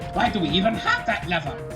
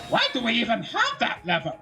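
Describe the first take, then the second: First: A put-on voice like a male cartoon villain. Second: A put-on voice like a female cartoon villain.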